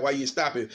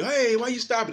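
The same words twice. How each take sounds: First: Said in the usual way. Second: High mock outrage at the stoppage; mock protesting fighter. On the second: Fighter faking protest to the referee, high and indignant. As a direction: squeal it like a fake complaint. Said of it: "They'll say".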